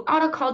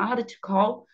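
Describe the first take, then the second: First: Ought and to blend into one word, oughta. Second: Ought and to are said as separate words. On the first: "de um modo coloquial também, os americanos, né, falariam assim" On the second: "Você pode também falar oughta to call"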